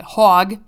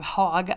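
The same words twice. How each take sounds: First: Hog in a Chicago accent, louder. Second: Said in the usual way. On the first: Shown as a demonstration. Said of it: "In a Chicago accent". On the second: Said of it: "I almost said that in Chicago".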